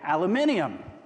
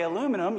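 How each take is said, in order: First: It is said the British way, with five syllables. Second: It is said the American way, with four syllables. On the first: "you say aluminium" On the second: "when I say aluminum"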